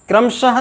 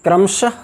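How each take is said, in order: First: क्रमशः with a full ha syllable; wrong visarga. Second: क्रमशः ending in a short breath; correct visarga. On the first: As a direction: say क्रमशः as kram-sha-ha. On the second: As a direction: say क्रमशः with a light visarga, no ha syllable. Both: Shown as a demonstration. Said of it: "नहीं".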